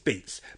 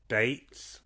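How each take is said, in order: First: The vowel sounds like a long ee. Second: The vowel sounds like a long ay.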